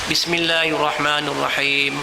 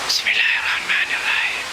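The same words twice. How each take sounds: First: The phrase is spoken aloud and clearly audible. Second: The phrase is whispered under the breath. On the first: The reciter hears their own words. The speaker calls it right. "Mesti didengar oleh telinga kita" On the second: The reciter cannot hear their own words. The speaker calls it wrong. "Dan dia tidak boleh berbisik"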